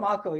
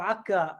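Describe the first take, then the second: First: The name is said the non-Palestinian way. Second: The name is said the Palestinian way. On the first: "I'm from Akko" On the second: "as the uh, Palestinians would pronounce it"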